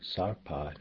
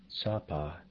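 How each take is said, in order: First: The first syllable has an R sound. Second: The first syllable has no R sound.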